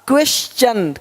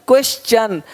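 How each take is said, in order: No difference in how they are said.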